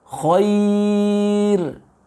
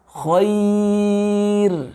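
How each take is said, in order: No difference in how they are said.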